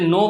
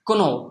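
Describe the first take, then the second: First: The word starts with an n sound. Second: The word starts with a k sound. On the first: The speaker calls it right. "নো শব্দের মধ্যে যে কে এর উচ্চারণটা হয় না" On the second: The speaker calls it wrong. "সে বলবে কোনো"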